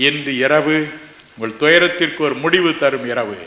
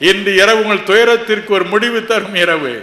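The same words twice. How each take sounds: First: Said in the usual way. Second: Louder, higher declaration; triumphant preacher's declaration; rising proclamation. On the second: Acted. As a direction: proclaim the promise with rising fire. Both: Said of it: "repeated louder".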